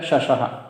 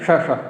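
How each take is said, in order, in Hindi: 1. Sibilant ध्वनियाँ तालव्य श की ध्वनियाँ हैं। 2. सिबिलेंट ध्वनियाँ मूर्धन्य श की ध्वनियाँ हैं। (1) "तो शब्द है शशः" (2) "और उच्चारण कर दिया शश, तो वह भी गलत है"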